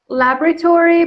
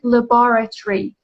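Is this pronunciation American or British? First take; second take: American; British. First: It is said in an American accent. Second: It is said in a British accent. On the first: "American is laboratory" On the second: "British people pronounce it laboratory"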